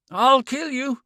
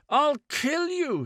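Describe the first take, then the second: First: High, loud, broken gasping threat; gasped threat. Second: Near scream. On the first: Man threatening the woman in broken gasps. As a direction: spit it out between gasps. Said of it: "he was muttering in short, broken gasps". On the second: Man threatening the woman, pitched almost at a scream. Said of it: "His voice rose until it was pitched almost at a scream". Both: A narrator's reading.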